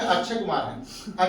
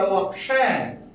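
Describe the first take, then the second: First: अक्षय softened to "achchhay"; mispronounced अक्षय. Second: अक्षय with a crisp k-sh, drawn out; corrected अक्षय. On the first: Retold or imitated. Teacher imitating how students say the name, mispronounced. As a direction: say अक्षय with chh replacing k-sh. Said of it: "आप कहते क्या होंगे?". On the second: Shown as a demonstration. Teacher correcting a student's name error, slow careful pronunciation. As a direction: say अक्षय slowly as ak-shay. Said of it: "अक्षय Kumar नहीं बेटा".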